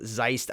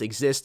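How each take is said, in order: First: The name starts with a z sound. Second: The name starts with an ex sound. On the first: The speaker calls it wrong. "or as I was calling them" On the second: The speaker calls it right. "but it is pronounced Exist"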